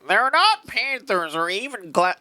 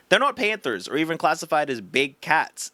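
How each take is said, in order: First: It is read in a put-on Reddit voice. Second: It is read in a normal voice.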